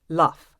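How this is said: It is said in a character's accent, consonants changed. "a Ted Lasso character"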